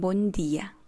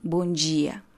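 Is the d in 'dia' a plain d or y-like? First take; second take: plain d; y-like. First: The d in 'dia' is a plain d. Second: The d in 'dia' sounds like a y. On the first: This is how people in the south say it. "Los del sur ya hablan buen día" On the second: This is how people in the north say it. "En la parte norte siempre se pronuncia la D con un Y"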